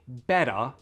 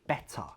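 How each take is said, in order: First: The middle T is a quick flapped D. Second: The middle T is a clear, released T. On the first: It sounds American. "that's the flap D" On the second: It sounds British. "if I pronounce better with a true T"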